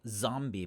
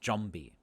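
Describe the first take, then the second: First: It starts with a buzzing z sound. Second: It starts with a j-like sound. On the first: "So zombie becomes" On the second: "we substitute it for uh, for usually a j or ch"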